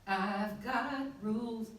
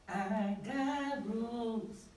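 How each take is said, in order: First: The 've sound is pronounced clearly and neatly. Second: The 've sound is dropped, with a gritty edge. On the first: "But I'm saying" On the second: "he wanted it to be"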